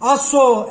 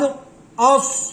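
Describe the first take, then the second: First: The final consonant bounces with an echoing vowel. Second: The final consonant stops cleanly without echo.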